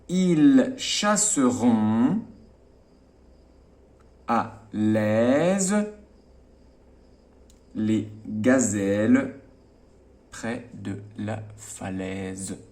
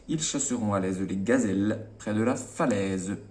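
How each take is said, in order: First: The sentence is read slowly. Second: The sentence is read quickly. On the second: "plus rapidement"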